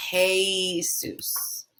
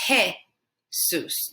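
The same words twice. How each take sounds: First: Jesus as hay-SOOS with a glide; slow wrong Jesus, hay-soos; anglicized Jesus. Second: Jesus as heh-SOOS; Jesus with simple E; Jesus the Spanish way; Spanish pronunciation. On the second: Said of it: "not Jesus". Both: Shown as a demonstration.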